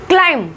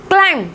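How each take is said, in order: Both takes have the same delivery.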